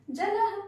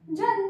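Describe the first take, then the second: First: जलह said higher and louder, with a clear breathy h at the end; visarga pronounced. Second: Said in the usual way. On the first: Shown as a demonstration. Teacher contrasting जलह with plain जल for the class. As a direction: land hard on the final h of जलह. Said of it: "तो अब हम इसको कैसे बोलेंगे". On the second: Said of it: "तो अब हम इसको क्या बोलेंगे".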